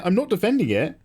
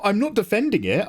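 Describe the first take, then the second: First: "defending" pushed with a rise; stress on defending. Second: "not" leaned on, rising; stress on not. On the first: Streamer repeats the denial, stressing "defending". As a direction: lean on "defending" this time. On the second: Streamer protests to chat, hitting "not". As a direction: push "not" harder in protest. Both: Real, not acted. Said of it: "repeated protest".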